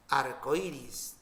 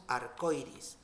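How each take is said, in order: First: "Arcoíris" lento, por sílabas, hiato "o-í", acento en la "í"; pronunciación correcta. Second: "arcoíris" con diptongo, "ar-coi-ris", acento en la "o"; pronunciación incorrecta. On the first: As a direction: marca despacio la "í" acentuada de "Arcoíris". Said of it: "tildamos la I". ("Arcoíris" silabeado lentamente con la "í" tónica) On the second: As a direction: di "arcoíris" mal, uniendo "oi". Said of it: "tenemos que tildar la I para romper diptongo". ("arcoíris" mal dicho, sin romper el diptongo) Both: Shown as a demonstration.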